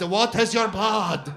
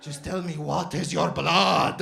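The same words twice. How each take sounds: First: Louder, slow, rising-intensity demand; insistent shopkeeper. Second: Slow, loud, drawn-out question; probing shopkeeper. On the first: Doner guy presses customer on descent, loud demand. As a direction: push the repeated question harder. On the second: Doner guy demands customer's descent, slow and insistent. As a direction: stretch each word insistently. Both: Retold or imitated.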